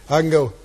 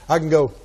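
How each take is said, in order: No difference in how they are said.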